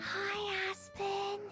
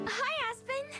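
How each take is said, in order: First: It is said quietly. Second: It is said loudly.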